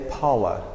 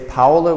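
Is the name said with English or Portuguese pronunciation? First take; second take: English; Portuguese. First: The name is said with English pronunciation. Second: The name is said with Portuguese pronunciation. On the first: The speaker calls it right. "we say Paula" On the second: The speaker calls it wrong. "We don't say Paula"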